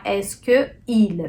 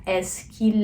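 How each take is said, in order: First: Slow "Est-ce que il" with both vowels separate; sem elisão. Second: "Est-ce qu'il" joined as "es-kil"; com elisão. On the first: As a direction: keep "que" and "il" apart, unelided. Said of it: "Não pode ficar". (errado, devagar: "que il" separado, sem elisão) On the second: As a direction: drop the vowel of "que" and glide into "il". (elisão: "qu'il" dito "kil", tudo ligado) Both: Shown as a demonstration.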